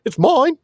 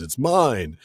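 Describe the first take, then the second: First: Mine shrieked very high and louder; seagull mine. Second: Said in the usual way. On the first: Shown as a demonstration. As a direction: squawk mine like a greedy seagull. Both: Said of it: "I can see him now, like the seagulls".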